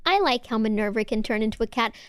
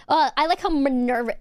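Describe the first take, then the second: First: Said in the usual way. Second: Mocking quote. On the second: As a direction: scornfully echo the chat message. Mockingly repeats the chat message.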